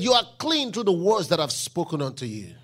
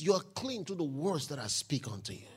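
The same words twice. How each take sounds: First: Loud, lower proclamation on "clean"; proclaiming loudly. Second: Soft, lower, calm repeat of the line; quiet retelling. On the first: Preacher quoting Jesus to the congregation, loud proclamation. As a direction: declare it to the room. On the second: Preacher retelling Jesus's answer to one seeker, quiet and calm. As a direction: say it gently, almost to yourself. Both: Acted.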